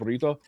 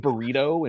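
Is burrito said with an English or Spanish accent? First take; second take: Spanish; English. First: It is said with a Spanish accent. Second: It is said with an Anglo English accent.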